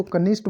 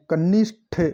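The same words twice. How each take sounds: First: "कनिष्ठ" said quickly with plain final t; "कनिष्ठ" without breath on the ending; common mispronunciation. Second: "कनिष्ठ" with aspirated th released at the end; emphatic final th on "कनिष्ठ"; correct pronunciation. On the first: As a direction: say "कनिष्ठ" as kanisht. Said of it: "अपन इसको कनिष्ठ बोलते हैं". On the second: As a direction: sound out "कनिष्ठ" as ka-nish-tha. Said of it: "ठ आएगा last में". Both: Shown as a demonstration.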